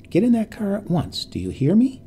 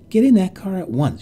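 First: Insistent command. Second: Angry command. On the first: Repeated order, more insistent. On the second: Ordering the old woman and child. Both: Acted.

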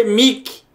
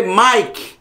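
First: "Mick" with an ee vowel, "mik"; Portuguese spelling reading. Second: "Mike" with the ai diphthong, "maik"; English pronunciation. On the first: Teacher showing how English is not read, ee vowel. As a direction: say "Mick" with a plain i. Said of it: "na língua inglesa não se lê". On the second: Teacher giving the correct English reading, ai vowel. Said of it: "se lê". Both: Shown as a demonstration.

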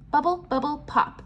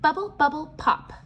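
Both takes have the same delivery.

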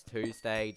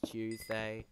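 First: Tuesday with a clean "too" at the start; "TOOZ-day" pronunciation. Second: Slow Tuesday with a "ch" start; "CHOOZ-day" pronunciation. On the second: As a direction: say Tuesday slowly as "CHOOZ-day", British style. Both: Shown as a demonstration. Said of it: "something with the position of the mouth".

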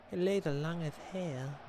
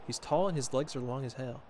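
First: Put-on voice. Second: Said in the usual way. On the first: Streamer echoing the remark about long legs, put-on voice. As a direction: repeat it in a silly put-on voice.

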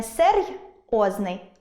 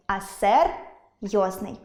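First: Серйозний broken as серй — озний; серйозний split right after the й; wrong split. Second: Серйозний broken as сер — йозний; серйозний split before the йо; correct split. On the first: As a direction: say серй, pause, then озний. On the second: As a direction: say а сер, pause, then йозний. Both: Shown as a demonstration. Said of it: "не розриваємо".

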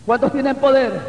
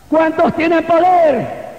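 First: Said in the usual way. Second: High, slow rallying call; arenga a la congregación. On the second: Real, not acted. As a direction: rouse the church with a raised, stretched question. Repeats the question to rouse congregation. (arenga en voz alta, aguda y alargada)

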